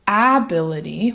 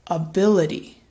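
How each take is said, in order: First: The first vowel is a full, clear vowel. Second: The first vowel is a relaxed schwa sound. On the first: "instead of ability" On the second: "it gets reduced to something called a schwa"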